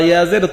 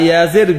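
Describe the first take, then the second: The two takes are said the same way.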